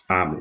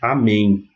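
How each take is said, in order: First: The stress is on the first syllable. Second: The stress is on the last syllable. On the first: The speaker calls it right. "Então a vai ser a sílaba tônica" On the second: The speaker calls it wrong. "nunca vai ser amém, como em português"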